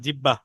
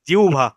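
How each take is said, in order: First: A doubled b sound follows the first syllable. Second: An h sound follows the first syllable. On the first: The speaker calls it wrong. "আমরা বলি জিরবা বা জিব্বা" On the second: The speaker calls it right. "শুদ্ধ উচ্চারণ হলো জিহ্বা"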